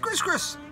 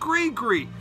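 First: Each syllable is said with a final s sound. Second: Each syllable has an ee vowel with no final s. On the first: The speaker calls it wrong. "This is Gris-Gris" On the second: The speaker calls it right. "It's pronounced Gree-Gree"

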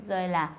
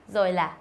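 Both takes have the same delivery.

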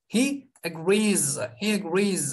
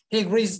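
First: The final sound of the word is drawn out. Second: The final sound of the word is short. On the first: The speaker calls it right. "Sonda bir uzatmaya da dikkat edelim" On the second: The speaker calls it wrong. "He agrees değil"

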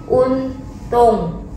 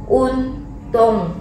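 Both takes have the same delivery.

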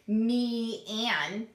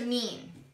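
First: The word is split into two syllables. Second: The word is said as one syllable. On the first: The speaker calls it wrong. "You don't say me and" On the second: The speaker calls it right. "You don't even say the A"

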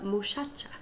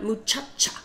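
First: The middle consonant is a soft sh sound. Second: The middle consonant is a harsh ch sound. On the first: "they'll pronounce it as more like an SH" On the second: "Not muchacha"

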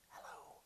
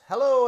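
First: It is whispered very quietly. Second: It is spoken in a normal voice.

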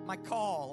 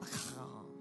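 First: The middle consonant is a plain hard k. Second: The middle consonant is a rough throaty sound.

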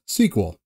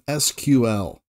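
First: It is said as one word, sequel. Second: It is said as three separate letters. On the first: The speaker calls it right. "as it's commonly known as SQL" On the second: The speaker calls it wrong. "which already feels weird for me to say it like that"

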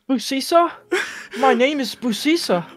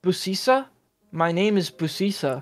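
First: It is read in a put-on character voice. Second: It is read in an ordinary speaking voice.

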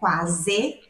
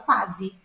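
First: The word ends with a clear e vowel. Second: The word ends with an i-like vowel. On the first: This is the word said the way it is written. "em vez de falar quase" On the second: This is how the word is said in everyday speech. "no português falado, a gente fala quase"

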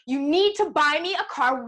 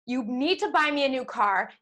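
First: It is said loudly and forcefully. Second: It is said at a normal, quieter volume.

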